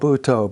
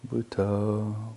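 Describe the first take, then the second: First: It is said with loud, over-energetic force. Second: It is said slowly with low, sleepy energy. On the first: The meditator has gone past the point of balance. "You get too pumped up" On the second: The meditator is drifting toward sleep. "don't say Butoh, Butoh, Butoh. You just drift off to sleep"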